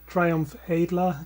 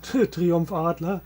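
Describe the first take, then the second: First: The name is pronounced with English sounds. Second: The name is pronounced with German sounds.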